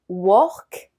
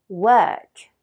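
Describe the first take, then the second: First: The vowel sounds like a French O. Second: The vowel is the English sound of girl. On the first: The speaker calls it wrong. "Beaucoup de Français disent" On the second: The speaker calls it right. "C'est plutôt work"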